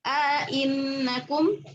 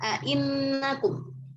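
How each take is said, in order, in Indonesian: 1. Hamzah glotal kedua jelas, dengan vokal panjang yang disisipkan. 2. Hamzah glotal kedua jelas, tanpa vokal panjang yang disisipkan. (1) "tahqiq hamzah yang kedua dengan idghal" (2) "tahqiqul hamzah yang kedua, ya, tanpa idghal"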